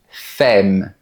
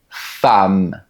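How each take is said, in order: First: The vowel sounds like an e. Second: The vowel sounds like an a. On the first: The speaker calls it wrong. "tu pourrais penser qu'on dit" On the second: The speaker calls it right. "La lettre E se prononce comme un A"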